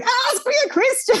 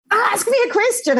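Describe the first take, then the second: First: Even higher, shrill-pitched mock yell; imitated yell. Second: Imitated yell. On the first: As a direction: shout it up high, mimicking her impatience. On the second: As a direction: bark the demand up high, imitating her. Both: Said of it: "she starts yelling at me".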